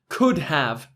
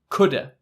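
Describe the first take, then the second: First: The word have is said in full. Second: The word have is reduced to a.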